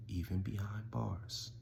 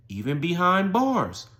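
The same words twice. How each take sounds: First: Very soft, slow punchline; hushed refrain. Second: "even behind bars" high and drawn out; emphatic refrain. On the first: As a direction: let it sink to a slow hush. Refrain dropped to a hush. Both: Real, not acted.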